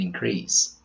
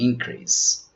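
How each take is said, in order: First: The stress follows the verb pattern. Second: The stress follows the noun pattern. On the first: The word is used as a verb. "As verbs, we pronounce" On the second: The word is used as a noun. "As nouns, their pronunciations are"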